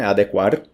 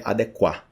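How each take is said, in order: First: "adequar" with a tapped final R; Spanish pronunciation. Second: "adequar" with silent final R; Portuguese pronunciation. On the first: Teacher shows the Spanish infinitive, Spanish pronunciation. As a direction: sound the R ending of "adequar". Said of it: "aqui em espanhol é adequar". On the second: Teacher shows the dropped R, Portuguese pronunciation. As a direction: end "adequar" on open KWÁ. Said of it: "Não tem esse R em português". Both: Shown as a demonstration.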